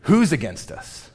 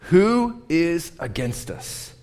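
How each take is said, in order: First: Said in the usual way. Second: "Who is against us?" drawn out slowly with each word weighted and pitched higher; slow, stressed reading of "Who is against us?". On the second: Shown as a demonstration. Pastor rereads the verse to his congregation, slowly spelling out each word. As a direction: let every word of "Who is against us?" land separately. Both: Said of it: "it could be read this".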